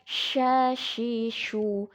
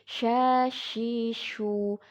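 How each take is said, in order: No difference in how they are said.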